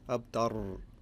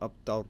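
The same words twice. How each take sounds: First: The final r is rolled. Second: The final r is not rolled. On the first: The speaker calls it wrong. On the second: The speaker calls it right. "not rolling the ra"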